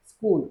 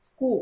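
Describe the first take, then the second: First: Said in the usual way. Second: స్కూ with the final l left off; sound omission. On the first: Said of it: "స్కూల్ అనే వర్డ్లో". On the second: Shown as a demonstration. Teacher demonstrating a child's omission error, స్కూ without its final l. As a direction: drop the last l, ending స్కూ on the open vowel. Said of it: "స్కూ అని మాత్రమే పలుకుతారు".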